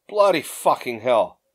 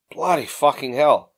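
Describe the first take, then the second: First: Slow, grudging grumble; grumbled curse. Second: Slow, weary-sigh delivery; sighed curse. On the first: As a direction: grumble it slowly under protest. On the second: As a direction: let it out slowly after a sigh. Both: A narrator's reading.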